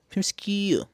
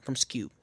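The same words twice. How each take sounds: First: High-pitched, exaggerated SKEW; playful repeat. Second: Said in the usual way. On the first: Shown as a demonstration. Vlogger playfully repeating a phrase, high-pitched. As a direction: lift "Skew" high and let it fall.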